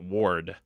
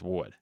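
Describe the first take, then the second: First: The name is said in a general American accent. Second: The name is said in a Boston accent. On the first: "like not Ward" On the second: "it's Ward"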